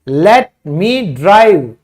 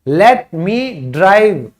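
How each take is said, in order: No difference in how they are said.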